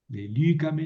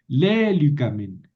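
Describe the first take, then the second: First: The stress is on the second syllable. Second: The stress is on the first syllable. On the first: The speaker calls it right. "¿Por qué moví el acento?" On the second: The speaker calls it wrong. "yo no puedo seguir acentuando aquí"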